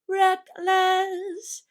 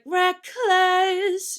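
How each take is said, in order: First: The k sound is soft and barely heard. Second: The k sound is pushed out strongly. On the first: "you can't really hear the k sound very much" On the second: "Instead of being like"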